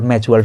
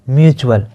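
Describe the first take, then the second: First: The word begins with a 'may' sound. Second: The word begins with a 'myoo' sound. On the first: The speaker calls it wrong. "अक्सर मैं देखता हूँ अपने दोस्तों को" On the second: The speaker calls it right. "बार बार मैं सही उच्चारण कर रहा हूँ"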